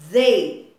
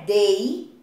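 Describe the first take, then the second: First: It starts with a th sound, tongue between teeth. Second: It starts without a th sound, tongue kept in. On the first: The speaker calls it right. "a gente tem que colocar a língua no meio dos dentes" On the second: The speaker calls it wrong. "Não é they"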